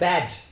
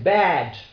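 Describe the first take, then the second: First: The vowel is said short. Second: The vowel is said long. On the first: The speaker calls it wrong. "So you don't say bad" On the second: The speaker calls it right. "you say bad"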